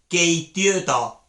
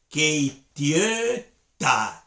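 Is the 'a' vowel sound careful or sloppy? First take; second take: sloppy; careful. First: The 'a' vowel is loose and sloppy. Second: The 'a' vowel is clear and careful. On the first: The speaker calls it wrong. "pronuncia mal" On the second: The speaker calls it right. "esa A"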